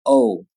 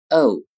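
First: American o with the tongue further back; teacher showing American o. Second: British o with the tongue further forward; teacher showing British o. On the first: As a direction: give the o the American way. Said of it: "而美音发作". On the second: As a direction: give the o the British way. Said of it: "英音发作". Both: Shown as a demonstration.

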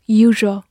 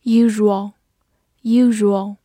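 First: Usual in its shorter variant, with a reduced ending; alternative pronunciation. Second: Said in the usual way. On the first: Shown as a demonstration. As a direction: say usual more compactly, as two syllables. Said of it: "也可以读作". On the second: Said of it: "也可以读作usual".

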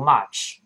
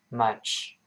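First: "much" with an open ah vowel; much, mispronounced. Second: "much" softer, with a short relaxed uh; much, correct vowel. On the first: Teacher warns learners again, open ah in "much". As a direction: say "much" wrongly as "mahch". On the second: Teacher models the right vowel, short uh in "much". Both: Shown as a demonstration. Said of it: "一样不要读much".

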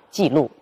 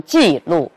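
First: 记 in 记录 said with the half falling 53 tone, then a full fall on 录; the right reading of 记录, first fall cut short; correct half fall. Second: 记录 with both syllables at the full 51 falling tone; the wrong reading of 记录, both syllables fully falling; wrong full falls. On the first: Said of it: "而是要读作记录". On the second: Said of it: "我们不能读成记录". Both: Shown as a demonstration.

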